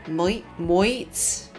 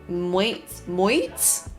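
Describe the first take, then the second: The two takes are said the same way.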